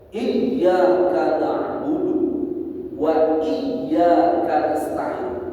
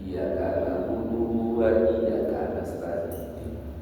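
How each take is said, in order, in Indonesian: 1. Bunyi y pada iyyaka dibaca ganda. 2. Bunyi y pada iyyaka dibaca pendek, tunggal. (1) "harus begitu dibacanya" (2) "Gara-gara gak ada tasdidnya"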